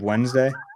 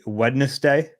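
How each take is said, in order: First: It is said the usual way, with 'd' silent. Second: Every letter is sounded out, including the 'd'.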